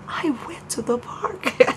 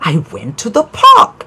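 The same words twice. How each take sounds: First: It is said in a surprised tone. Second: It is said in an angry tone. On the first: "we're going to read it like we're surprised" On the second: "We're going to read like we're angry"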